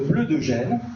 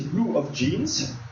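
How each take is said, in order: First: It is said with a French pronunciation. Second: It is said with an English pronunciation.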